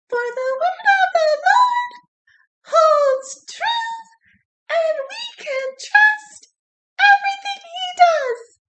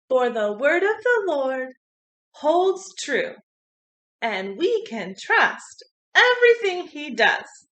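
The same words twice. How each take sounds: First: It is said in a high squeaky voice. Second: It is said in a normal voice.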